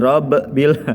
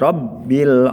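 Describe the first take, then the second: First: The doubled b bounces with an echoing release. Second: The doubled b is held smoothly without bounce. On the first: The speaker calls it wrong. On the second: The speaker calls it right.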